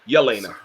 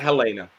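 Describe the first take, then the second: First: The name begins with a Y sound. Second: The name begins with an H sound. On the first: The speaker calls it right. "Yelena, not Helena" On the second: The speaker calls it wrong. "not Helena"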